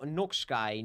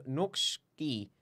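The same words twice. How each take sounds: First: "Noxkai" ending like English "sky"; hesitant "Noxkai", last syllable rhyming with "tie"; mistaken pronunciation attempt. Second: "Noxki" ending in a "kee" sound; careful, lower "Noxki" with a long ee ending; alternative pronunciation attempt. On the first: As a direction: try "Noxkai" with an eye sound at the end. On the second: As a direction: slowly say "Noxki" as NOKS-kee. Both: Shown as a demonstration. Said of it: "Ik, ik ben het weer vergeten".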